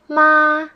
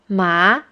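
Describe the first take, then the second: First: The pitch stays high and level. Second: The pitch starts mid and rises high. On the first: The word means mother. "the first tone is the flat tone" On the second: The word means hump. "the second tone is the rising tone"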